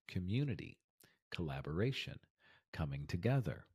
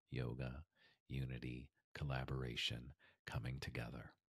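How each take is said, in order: First: Said in the usual way. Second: Lower, softer dreamy guru voice; mock spiritual voice. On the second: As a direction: drift into a hushed yoga-teacher tone. Mock dreamy echo of the list.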